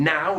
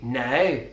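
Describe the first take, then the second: First: The vowel is a standard British ow diphthong. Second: The vowel is a shorter, more closed Belfast sound.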